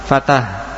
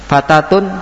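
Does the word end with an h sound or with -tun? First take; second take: h sound; -tun. First: The word ends with a soft h sound. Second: The word ends with a full -tun ending. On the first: The reader stops on this word. "Wakafnya dengan ha" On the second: The word is read in running speech. "Fatatun Fatah"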